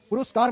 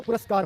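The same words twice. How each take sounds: First: पुरस्कार as "puruskar", middle vowel u; wrong pronunciation. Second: पुरस्कार as "puraskar", middle vowel a; correct pronunciation. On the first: Teacher warns children against this word, mispronounced. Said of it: "पुरस्कार मत करना बच्चों". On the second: Teacher corrects the children, properly pronounced. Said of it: "पुरस्कार होता है". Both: Shown as a demonstration.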